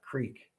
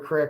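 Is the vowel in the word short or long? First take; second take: long; short. First: It has a long standard vowel, like creek. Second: It has a short local-dialect vowel, like crick.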